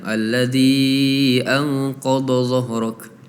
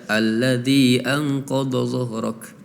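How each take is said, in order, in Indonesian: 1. Huruf mad pada kata pertama dibaca panjang. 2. Huruf mad pada kata pertama dibaca pendek.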